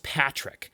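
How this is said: The name is said with an American pronunciation. "as an American, ... no, it's Patrick"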